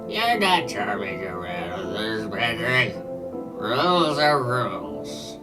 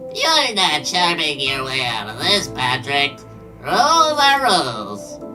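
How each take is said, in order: First: It is said in a normal voice. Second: It is said in a SpongeBob-style voice.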